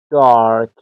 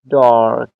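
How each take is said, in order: First: The r after the vowel is pronounced. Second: The same.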